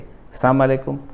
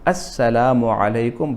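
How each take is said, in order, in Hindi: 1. अभिवादन संक्षिप्त है और उसकी ध्वनियाँ आपस में जुड़ जाती हैं। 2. अभिवादन का हर शब्दांश साफ़ बोला जाता है। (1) "तोड़ मड़ोड़ कर" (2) "पूरे अल्फाज सही अदा करो"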